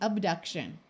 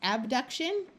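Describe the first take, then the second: First: The first vowel is reduced to a schwa. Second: The first vowel is a full, clear vowel. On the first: "or it might schwa to be abduction" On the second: "you might say it as abduction"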